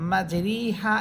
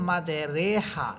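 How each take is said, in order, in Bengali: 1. r-এর পরের স্বরধ্বনিটি হ্রস্ব 'i'। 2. r-এর পরের স্বরধ্বনিটি 'e'। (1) "রয়ের নিচে আছে খারা খারাজের, এই জন্য এখানে রস্বীকার ব্যবহার করা হয়েছে" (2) "দেখেন একার দিয়ে পড়তেছি"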